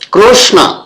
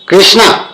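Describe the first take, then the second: First: The name ends without a long vowel. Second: The name ends with a long 'aa' vowel. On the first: The speaker calls it right. "कृष्ण नाम का सही उच्चारण कृष्ण" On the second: The speaker calls it wrong. "कृष्णा ना नहीं ना नहीं है"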